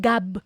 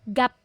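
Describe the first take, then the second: First: The word ends with a b sound. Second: The word ends with a p sound. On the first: The speaker calls it wrong. "hindi yan gab" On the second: The speaker calls it right. "final P sound, hindi B"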